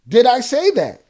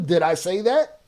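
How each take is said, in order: First: Louder, higher repeat with a falling end; forceful, pitched-up rhetorical question; indignant challenge. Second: Said in the usual way. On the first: Real, not acted. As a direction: throw the question back hard.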